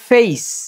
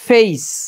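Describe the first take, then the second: Both takes have the same delivery.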